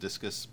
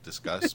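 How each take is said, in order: First: It sounds like the sports word discus. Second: It sounds like the verb discuss. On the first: "you can also pronounce it Discus" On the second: "they want to say Discuss because it's a comment"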